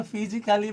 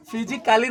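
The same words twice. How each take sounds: First: फिजिकली as fi-ji-kuh-lee; correct pronunciation. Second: फिजिकली misread as fi-ji-KAA-lee; wrong pronunciation. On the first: Teacher giving students the right reading, फिजिकली with "kuh-lee". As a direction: shorten the A in फिजिकली to a light "kuh". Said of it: "इसको पढ़ेंगे". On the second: Teacher showing students the misreading, फिजिकली with "kaa-lee". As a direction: sound the A in फिजिकली as a long "kaa". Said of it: "नहीं पढ़ेंगे". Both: Shown as a demonstration.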